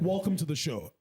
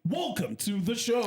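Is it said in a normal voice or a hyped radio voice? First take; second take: normal; radio voice. First: It is said in his normal speaking voice. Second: It is said in a hyped hip hop radio voice.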